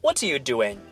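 Doing is stressed; what are you is fast and weak. The speaker calls it right. "你要把它说成What are you doing?"

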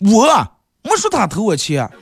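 The stress is on 我.

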